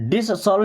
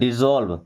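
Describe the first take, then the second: First: The middle consonant is a hissing s sound. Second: The middle consonant is a buzzing z sound. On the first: The speaker calls it wrong. "इसको डिसॉल्व नहीं पढ़ते" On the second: The speaker calls it right. "क्या बोलते हैं? डिजॉल्व"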